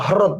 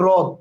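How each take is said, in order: First: The word begins with an h sound. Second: The word begins with an r sound. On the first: The speaker calls it wrong. "হরদ বলি না" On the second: The speaker calls it right. "আমরা বলি রদ"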